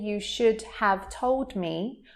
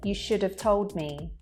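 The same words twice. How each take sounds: First: Should and have are said fully and separately. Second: Should and have are reduced and linked together. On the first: "Instead of saying" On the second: "I'm saying"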